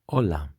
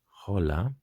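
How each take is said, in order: First: The word begins directly with the o vowel. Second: The word begins with an audible h sound. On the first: The speaker calls it right. "we are going to say hola" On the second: The speaker calls it wrong. "we are not going to say hola"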